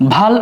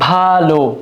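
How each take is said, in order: First: The word ends with a bare consonant. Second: The word ends with a final vowel sound. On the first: It means forehead. The speaker calls it wrong. "যদি শব্দটাকে আমি ভাল উচ্চারণ করে থাকি, তখন হবে কপাল" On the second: It means good. The speaker calls it right. "সেটা শব্দটা হবে ভালো"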